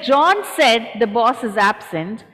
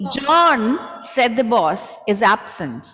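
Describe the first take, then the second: First: The sentence runs on without pauses inside it. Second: Pauses come before and after 'said the boss'. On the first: John is the one speaking. "then John is speaking" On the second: The boss is the one speaking. "Boss is speaking"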